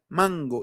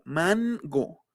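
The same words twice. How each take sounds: First: The n is made at the back. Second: The n is made at the front. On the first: The speaker calls it right. "Es una N velar" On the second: The speaker calls it wrong. "ya no es mango"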